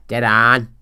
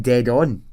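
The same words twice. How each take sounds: First: DEAD ON as a loud Belfast noise, ON drawn towards "aan"; exaggerated Belfast "dead on"; Belfast accent. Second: Said in the usual way. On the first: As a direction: mimic Northern Irish "dead on" with a stretched open vowel. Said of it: "all you'd hear is this noise". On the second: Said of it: "I know they're saying dead on".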